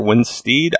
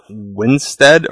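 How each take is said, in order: First: Winstead ending like "steed"; alternative pronunciation. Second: Winstead ending like "sted"; first pronunciation. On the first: Reviewer offering another guess at an actress's name, Winstead as "steed". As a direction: say Winstead with a long ee in the last syllable. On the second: Reviewer unsure of an actress's name, first pronunciation, Winstead as "sted". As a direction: say Winstead with a short e in the last syllable. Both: Shown as a demonstration. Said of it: "I don't know how to pronounce that".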